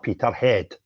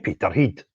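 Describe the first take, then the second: First: It is said with an English-style pronunciation. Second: It is said with a local Scottish pronunciation.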